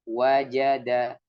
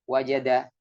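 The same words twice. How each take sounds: First: All three syllables take the same time. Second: The syllables are said at uneven speeds. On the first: The speaker calls it right. "tempo pengucapannya sama" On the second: The speaker calls it wrong.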